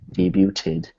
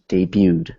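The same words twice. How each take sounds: First: The t sound is clearly pronounced. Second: The t sound is silent. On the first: The speaker calls it wrong. "You don't say debuted" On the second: The speaker calls it right. "the T is actually silent. You don't really hear it"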